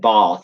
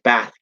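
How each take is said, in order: First: The word is said in a London accent. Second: The word is said in a Liverpool accent. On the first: "not in bath and glass" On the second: "my mum's side is from Liverpool, she says bath"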